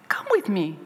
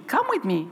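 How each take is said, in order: First: Said in the usual way. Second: Higher, gentle coaxing repeat; lightly sung invitation. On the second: Retold or imitated. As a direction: coax him along kindly. Coaxing boy to class.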